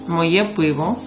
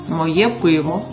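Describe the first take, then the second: Both takes have the same delivery.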